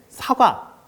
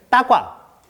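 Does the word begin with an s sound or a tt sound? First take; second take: s sound; tt sound. First: The word begins with a clear s sound. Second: The word begins with a tense tt sound. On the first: This is how typical peers say it. The speaker calls it right. "또박또박 말하는데" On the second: This is how a child with unclear speech says it. The speaker calls it wrong. "우리 아이는 따과, 우다처럼 들린다"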